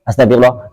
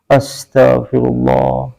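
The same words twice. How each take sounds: First: It is said quickly and hurriedly. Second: It is said slowly and deliberately. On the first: The words are said without real reflection. The speaker calls it wrong. "lisan yang terburu-buru" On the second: The words are said with heartfelt reflection. The speaker calls it right. "Makanya kudunya pelan"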